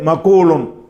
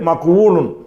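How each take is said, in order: First: No 'w' sound is heard after the 'q'. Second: A 'w' sound is heard after the 'q'. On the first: This is the form actually used. The speaker calls it right. "சொல்ல வேண்டியது" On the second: This is the underlying original form. The speaker calls it wrong. "அசல் படி வருவது"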